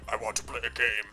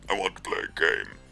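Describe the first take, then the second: First: It is said in a near-normal voice. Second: It is said in a put-on character voice. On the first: The speaker calls it wrong. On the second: The speaker calls it right.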